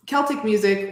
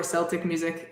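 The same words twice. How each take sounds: First: "Celtic" said KEL-tik; "Celtic" with K as in kick; hard K Celtic. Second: "Celtic" said SEL-tik; "Celtic" starting like "sell"; soft C Celtic. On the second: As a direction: begin "Celtic" with an S sound. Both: Shown as a demonstration. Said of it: "You can pronounce it both ways".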